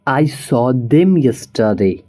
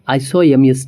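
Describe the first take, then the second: First: The word 'them' is said in full. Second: The word 'them' is reduced to 'em'.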